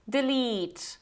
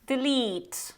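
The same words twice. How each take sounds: The two takes are said the same way.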